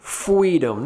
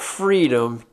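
First: It is said in a babyish, childlike way. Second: It is said in a normal adult way. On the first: A baby is saying the word. "Because she was a baby" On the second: An adult is saying the word. "not freedom"

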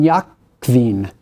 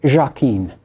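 First: The name has a German pronunciation. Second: The name has a French pronunciation. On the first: "I'm going to pronounce this in German" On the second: "If it were in French, it would be"

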